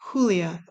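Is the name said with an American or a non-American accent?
non-American. The name is said with a non-American pronunciation.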